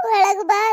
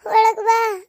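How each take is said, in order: First: High, loud call ending on a rising ಬಾ; loud welcoming call, rising close; mother calling her in. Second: High, loud call from the doorway, falling at the end; loud welcoming call, falling close; mother calling her in. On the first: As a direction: call out again, lifting ಬಾ upward. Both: Retold or imitated. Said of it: "ಅಂತ ಕರಿತಿದ್ಲು ನಮ್ಮವ್ವ".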